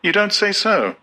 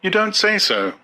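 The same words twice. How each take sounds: First: High, polite murmur of false interest; high mock-interested young woman; feigned interest. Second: High, light polite murmur; polite young woman, pitched up; polite Lenina. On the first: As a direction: fake being impressed, voice up high. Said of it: "simulated intelligence and said". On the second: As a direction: humour him sweetly, voice up high. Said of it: "said Lenina politely". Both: A narrator's reading.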